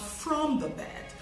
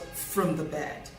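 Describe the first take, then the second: First: The word 'from' has a full vowel. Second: The word 'from' has a reduced vowel. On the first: The speaker calls it wrong. "not from the bed" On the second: The speaker calls it right. "F R O M is said in its weak form"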